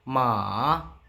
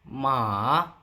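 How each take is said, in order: Both takes have the same delivery.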